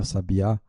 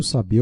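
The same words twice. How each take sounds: First: Sabiá stressed on the final á; stress on last syllable. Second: Sabia stressed on the bi; stress on middle syllable. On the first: Teacher naming the bird, Sabiá with final-syllable stress. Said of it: "é um pássaro". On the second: Teacher naming the verb, sabia with stress on BI. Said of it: "é um verbo". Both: Shown as a demonstration.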